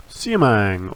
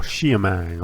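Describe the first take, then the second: First: Siamang said with a plain S, "SEE-a-mang"; first pronunciation. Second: Siamang said with a SH start, "SHEE-a-mang"; alternative pronunciation. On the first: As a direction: start Siamang on a clean "see" sound. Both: Shown as a demonstration. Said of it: "not sure how it's pronounced".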